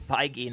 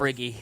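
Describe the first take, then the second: First: The name is said without an r sound. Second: The name is said with an r sound. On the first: The speaker calls it right. "it's Kevin Feige" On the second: The speaker calls it wrong.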